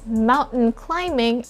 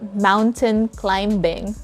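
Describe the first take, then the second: First: The b sound is silent. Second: The b sound is clearly pronounced. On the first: The speaker calls it right. "it's mountain climbing and not mountain climbing" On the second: The speaker calls it wrong. "and not"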